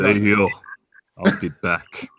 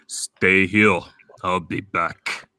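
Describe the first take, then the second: First: Put-on low, Austrian-accented action-hero voice; deep Austrian accent, clipped lines; Arnold Schwarzenegger impression. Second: Put-on low, slow Austrian-accented delivery; slow Austrian accent, heavy and low; authentic Arnold Schwarzenegger. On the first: Asked for Arnold, low Austrian accent. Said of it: "do Arnold Schwarzenegger". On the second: Showing an authentic Arnold, slow low Austrian accent. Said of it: "an actual voice".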